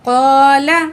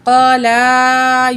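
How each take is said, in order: First: The word ends on the L with no stretched vowel. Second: The vowel after the L is drawn out long. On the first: The speaker calls it right. "अब यहाँ पे लाम को खींच के नहीं पढ़ना" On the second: The speaker calls it wrong. "क़ाला यूं करके पढ़ना गलत है"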